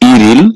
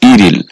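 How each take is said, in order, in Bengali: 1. শব্দাংশ দুটি 'r' ধ্বনি দিয়ে যুক্ত হয়। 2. শব্দাংশ দুটি 'r' ধ্বনি দিয়ে যুক্ত হয়।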